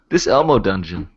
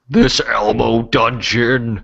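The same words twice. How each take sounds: First: It is said in his normal voice. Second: It is said in an Elmo impression voice.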